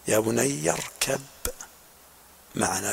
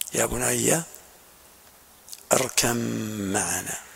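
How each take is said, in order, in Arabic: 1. تُنطق الباء منفصلةً قبل الميم. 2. تندمج الباء في صوت الميم الذي يليها. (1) "بعدم الإدغام" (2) "هذه قراءة الجمهور بالإدغام، إدغام الباء في الميم"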